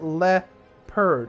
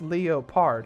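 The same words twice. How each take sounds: First: The O is silent, like lepperd. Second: The O is sounded, like lee-oh-pard. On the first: "why is it leopard?" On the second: "it should be pronounced leopard"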